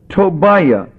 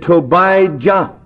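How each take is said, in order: First: The name is said in a softer way. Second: The name is said in a harsher way.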